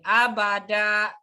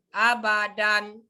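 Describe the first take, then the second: First: The word ends with a long a vowel. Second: The word ends with an n sound. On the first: "berubah menjadi abada" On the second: "abadan berubah menjadi abada"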